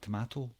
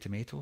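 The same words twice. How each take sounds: First: It is said in a non-American accent. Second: It is said in an American accent. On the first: "and not tomato" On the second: "If you're an American, you'll say tomato"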